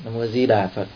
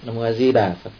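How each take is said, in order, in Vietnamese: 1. Trọng âm rơi vào các chữ Di Đà. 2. Trọng âm rơi vào các chữ Di Đà.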